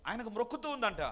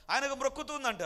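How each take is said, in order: First: Said in the usual way. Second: ఆయనకు మ్రొక్కుతూ ఉందంట repeated higher and louder; emphatic repeat. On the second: Shown as a demonstration. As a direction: hit ఆయనకు hard the second time.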